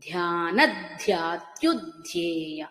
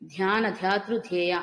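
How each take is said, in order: First: The 'dh' conjunct syllables are pressed strongly. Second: The 'dh' conjunct syllables are said lightly. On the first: The speaker calls it right. "ధకారం మీద ఎక్కువ ఒత్తిడి తీసుకురావాలి" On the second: The speaker calls it wrong. "అని వినపడకూడదు"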